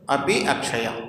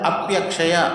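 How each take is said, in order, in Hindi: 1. दोनों शब्द अलग-अलग शब्दों की तरह बोले जाते हैं। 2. दोनों शब्द मिलकर एक शब्द बन गए हैं।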